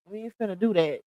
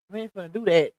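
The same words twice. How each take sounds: The two takes are said the same way.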